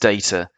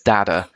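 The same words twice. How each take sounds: First: The word is said in an English accent. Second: The word is said in an American accent. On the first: "I'm English, so it's data" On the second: "You're American, so it's data"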